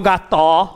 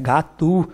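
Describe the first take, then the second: First: The final vowel is a full, open 'o'. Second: The final vowel is reduced to a 'u'. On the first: The speaker calls it wrong. "ninguém fala gató" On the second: The speaker calls it right. "como geralmente no Brasil, fala U"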